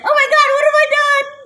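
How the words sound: It sounds thrilled and excited.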